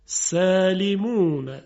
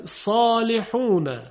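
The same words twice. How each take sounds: First: سالمون slow, with a thin, light sin; light sin demo. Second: صالحون slow, with a thick heavy sad; heavy sad demo. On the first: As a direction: draw out سالمون and keep the sin delicate. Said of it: "و کلمهٔ سالمون با سین". (سالمون کشیده با سین ظریف) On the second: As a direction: draw out صالحون and make the sad full. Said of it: "صدا درشته". (صالحون کشیده با صاد درشت) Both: Shown as a demonstration.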